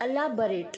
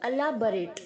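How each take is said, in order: First: The second syllable sounds like 'bar'. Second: The same.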